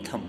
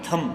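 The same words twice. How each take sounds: First: Thumb ending on M, no B heard; silent B. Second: Thumb with a voiced B after the M; B sounded. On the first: Teacher insists on the only reading, thumb with silent B. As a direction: drop the B from thumb. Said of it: "only thumb". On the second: Teacher warns of the mistake, thumb with B pronounced. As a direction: let the final B of thumb pop out. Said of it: "thumb नहीं पढ़ते हैं". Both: Shown as a demonstration.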